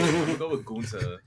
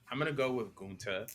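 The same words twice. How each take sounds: First: It is said in Mo's New York accent. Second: It is said in the speaker's plain voice.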